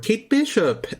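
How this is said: The name is said in an imitated accent.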